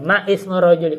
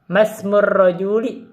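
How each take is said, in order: First: A glottal stop is heard before 'ismur'. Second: The words run together with no glottal stop. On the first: The speaker calls it wrong. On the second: The speaker calls it right. "Begitu namanya boleh"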